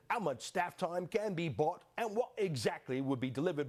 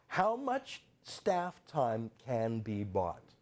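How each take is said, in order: First: How much staff time in a mock British official voice; prim, put-on British read of the question; British accent. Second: How much staff time can be bought? spelled out very slowly, word by word; slow pointed emphasis. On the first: Host reading the British letter, mock British accent. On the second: Shown as a demonstration. Host repeating the line to expose it, very slow emphasis. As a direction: drag out every word so it sinks in. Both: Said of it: "Forget my accent".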